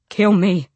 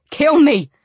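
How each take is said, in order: First: Raised, insistent plea; loud plea. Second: High, loud desperate shout; louder. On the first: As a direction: beg out loud, short of a scream. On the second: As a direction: shout the plea much harder. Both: A narrator's reading. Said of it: "he said again louder".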